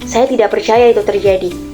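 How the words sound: It is said in an angry tone. "dengan nada yang marah"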